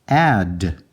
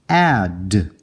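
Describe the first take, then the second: Both takes have the same delivery.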